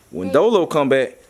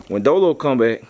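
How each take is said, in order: Both takes have the same delivery.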